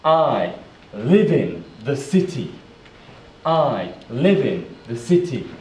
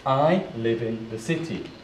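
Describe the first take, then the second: First: "I live in the city" in separate, louder chunks; careful model sentence. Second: Said in the usual way. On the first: Shown as a demonstration. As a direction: pause between "I", "live in" and "the city". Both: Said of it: "Let's put it together".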